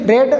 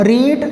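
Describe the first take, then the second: First: The vowel is short, as in 'red'. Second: The vowel is long, as in 'reed'. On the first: This is the third form of the verb. "उच्चारण में अंतर हो जाता है" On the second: This is the base form of the verb. "ये रीड है"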